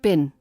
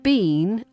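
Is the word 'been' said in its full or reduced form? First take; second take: reduced; full. First: The word is said in a reduced form. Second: The word is said in its full form.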